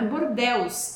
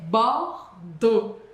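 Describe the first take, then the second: First: The letters are sounded as spelled, including the x. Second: It ends in an o sound, x silent. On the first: The speaker calls it wrong. "não é Bordeaux" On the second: The speaker calls it right. "E A U em francês som de O. E o X você já sabe que a gente não fala"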